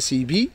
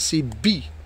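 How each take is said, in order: First: The b sound is short and light. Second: The b sound is pressed and doubled. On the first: "S'il n'y a pas shda, c'est bi" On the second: "Avec shda, on appuie"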